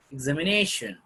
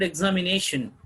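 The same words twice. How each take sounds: First: "Examination" with the weight on "nation"; stress on NATION. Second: Said in the usual way. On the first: Shown as a demonstration. Teacher modelling word stress, "Examination" stressed on "nation". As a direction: keep "exami" even, then stress "nation". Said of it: "has to be pronounced with stress". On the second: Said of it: "suppose in the word examination".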